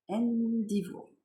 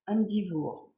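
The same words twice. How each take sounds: First: Endivour drawn out slowly in French-accented English, a little higher; slow deliberate French-accented Endivour; careful repeat of the name. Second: Endivour read once in French-accented English at normal pace; quick French-accented read of Endivour; first try at the English name. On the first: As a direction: Endivour spelled out syllable by syllable, slowly. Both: Shown as a demonstration. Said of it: "Excusez mon anglais".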